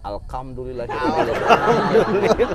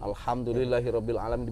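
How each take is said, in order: First: The sounds are slurred as if without teeth. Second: The sounds are articulated clearly and precisely. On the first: The speaker calls it wrong. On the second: The speaker calls it right.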